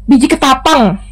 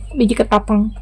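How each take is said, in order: First: Said in the usual way. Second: Biji ketapang murmured again much softer, to herself; soft confirming murmur of Biji ketapang; quiet repeat. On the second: Real, not acted. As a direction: repeat Biji ketapang under your breath to settle it. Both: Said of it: "eh, bukan biji salak".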